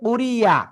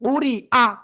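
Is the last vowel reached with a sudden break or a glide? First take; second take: glide; break. First: The last vowel follows a smooth 'y' glide. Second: The last vowel follows a sudden glottal break. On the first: The speaker calls it wrong. "অনেকে বলতেছে কুরিয়া, ইয়া বললে হবে না" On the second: The speaker calls it right. "Hamza জবর আ, শক্ত হবে... হঠাৎ করে ব্রেক"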